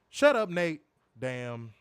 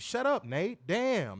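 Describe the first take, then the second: First: It is read flatly, like a plain name. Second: It is acted with expressive inflection.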